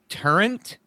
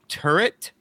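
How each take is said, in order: First: The word ends with an added N sound. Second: The word ends in a plain T sound. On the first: The speaker calls it wrong. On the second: The speaker calls it right.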